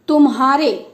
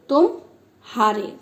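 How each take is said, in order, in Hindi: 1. यह बिना विराम के एक शब्द की तरह बोला जाता है। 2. दोनों हिस्सों के बीच हल्का सा विराम आता है।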